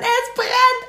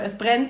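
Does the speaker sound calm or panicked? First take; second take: panicked; calm. First: It is said in a loud, panicked way. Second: It is said in a calm, even way. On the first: Everyone must get out immediately. "wie man das halt so in Panik macht" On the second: It is a plain report of a fire. "aber wirklich nicht so"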